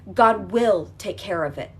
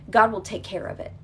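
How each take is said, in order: First: GOD said slowly and louder, each word weighed; slow emphatic. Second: Said in the usual way. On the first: Shown as a demonstration. Coach to listener, slow emphatic repeat. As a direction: lean hard on God, slowly.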